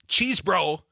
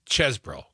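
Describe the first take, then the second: First: The first vowel is long, like in cheese. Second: The first vowel is short, like in chess. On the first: The speaker calls it wrong. "It's not cheese bro" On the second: The speaker calls it right. "it's chesbro. Put another way, the E, is like dessert"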